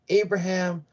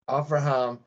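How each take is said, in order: First: The name is said in its English form. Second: The name is said in its Hebrew form.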